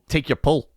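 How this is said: The last vowel is centralized toward an uh sound. "you'd say like"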